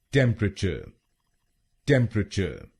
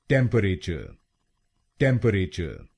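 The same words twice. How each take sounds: First: टेम्परेचर squeezed to three syllables, tem-pruh-chuh, no final r; टेम्परेचर said short as tem-pra-cha, the middle vowel dropped; correct pronunciation. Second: टेम्परेचर said in four full syllables, tem-pe-re-cher with a clear r at the end; the common Indian way, टेम्परेचर with every vowel sounded; wrong pronunciation. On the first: Teacher modelling the right way: टेम्परेचर as tem-pruh-chuh. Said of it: "अब सुनते हैं सही pronunciation". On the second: Teacher demonstrating the mistake: टेम्परेचर as tem-pe-re-cher. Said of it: "पहले सुनते हैं गलत pronunciation".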